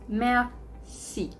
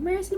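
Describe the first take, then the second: First: It is said with a French pronunciation. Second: It is said like the English word mercy. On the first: It means thank you. The speaker calls it right. "No. Merci" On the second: It sounds like begging for mercy. The speaker calls it wrong. "Not mercy, like you're begging"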